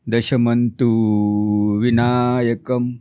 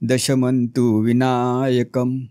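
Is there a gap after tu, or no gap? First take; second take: gap; no gap. First: A gap follows tu, which sounds long. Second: Vinayakam follows tu at once, no gap. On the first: The speaker calls it wrong. "तू आणि वी मध्ये जर तुम्ही gap दिलात तर तूचा उच्चार दीर्घ होतो ... असा उच्चार करायचा नाही" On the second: The speaker calls it right. "तू नंतर विनायकम तुम्ही लगेच उचललत"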